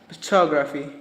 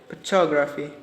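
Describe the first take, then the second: Both takes have the same delivery.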